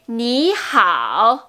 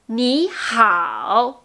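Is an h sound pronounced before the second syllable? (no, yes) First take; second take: yes; yes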